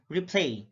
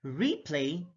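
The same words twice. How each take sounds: First: RePLAY, second syllable stressed; careful demo of rePLAY. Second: REplay, long REE; careful demo of REplay; stress on first syllable. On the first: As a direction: hit the PLAY in "replay". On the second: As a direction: hit the RE in "Replay". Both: Shown as a demonstration. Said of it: "stress is the verbal emphasis used".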